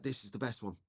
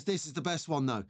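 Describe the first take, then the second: First: Put-on hushed, reverent retelling of a kid; softer, awestruck imitation of the boy; hushed awe. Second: Said in the usual way. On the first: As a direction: drop to a soft, awed near-whisper. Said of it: "he pulls it out ever so slowly". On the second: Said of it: "And then he goes".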